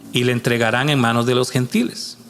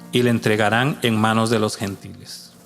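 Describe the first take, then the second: No difference in how they are said.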